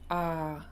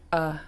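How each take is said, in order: First: The vowel sound is held for longer. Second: The vowel sound is held only briefly. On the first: "Long vowels are written with a double letter" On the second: "short vowels are written with a singular letter"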